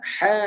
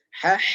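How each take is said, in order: First: The final h is cut off without breath. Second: The final h flows out with breath. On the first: The speaker calls it wrong. "Tidak mengalir suaranya" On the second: The speaker calls it right. "Jadi ada mengalirnya"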